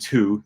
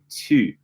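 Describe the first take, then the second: First: It has an English oo vowel. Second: It has a rounded French u vowel. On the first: The speaker calls it wrong. "they're not saying tu" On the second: The speaker calls it right. "they're saying tu"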